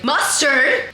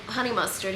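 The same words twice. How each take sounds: First: Mock loud, rising "Mustard?"; retelling the counter guy mishearing her, mock loud; imitating loud clerk. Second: Said in the usual way. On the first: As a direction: ape the clerk shouting "Mustard?". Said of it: "super loud". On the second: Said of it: "and I was like".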